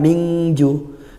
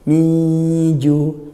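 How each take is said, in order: First: The n is turned into a full 'ng' sound. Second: The n is faint and moves straight into j. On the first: The speaker calls it wrong. "bukan mingju" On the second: The speaker calls it right. "minju ikhfa haqiqi... dibaca samar"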